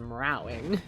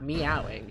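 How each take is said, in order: First: The word is said with an added R sound. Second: The word is said without an R sound. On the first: The speaker calls it wrong. "that bitch is meowing with an R" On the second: The speaker calls it right. "She's not meowing"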